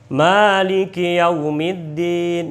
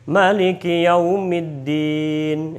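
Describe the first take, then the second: First: The first vowel of Maliki is held long. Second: The first vowel of Maliki is kept short. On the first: This follows one reciter's reading. The speaker calls it right. "Imam Hafs bacanya panjang" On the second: This does not fit that reciter's reading. The speaker calls it wrong. "nggak boleh"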